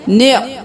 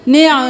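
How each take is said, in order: First: The ain sound is held still without bounce. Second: The ain sound is jolted with a bounce. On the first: The speaker calls it right. "साकिन रखना है" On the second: The speaker calls it wrong. "निअ नहीं करना, आइन को हिलाना नहीं है"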